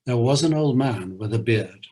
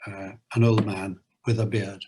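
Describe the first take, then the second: First: Lilting poem reading with a bouncy beat; limerick reading. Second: Put-on "old" and "beard" hit on the beat of "an old man with a beard"; rhythm demo. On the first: Acted. Host reading a Lear limerick aloud, lilting recitation. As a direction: recite it like a nonsense rhyme for children. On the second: Shown as a demonstration. Teacher scanning the limerick line to show the anapaest, beats stressed. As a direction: scan the line, leaning on each beat. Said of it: "anapaestic rhythm, da-da-dum".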